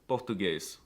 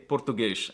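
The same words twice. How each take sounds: First: The final S sounds like a plain S. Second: The final S sounds like SH. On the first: This is how it is said in Brazil. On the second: This is how it is said in Portugal.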